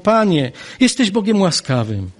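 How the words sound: It sounds like warm, grateful praise. It is a heartfelt blessing of God. "Jonasz wypowiedział wspaniałe błogosławieństwo"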